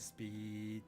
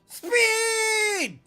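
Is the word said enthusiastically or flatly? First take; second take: flat; enthusiastic. First: The word is said flatly, without extra energy. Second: The word is said loudly with lots of energy.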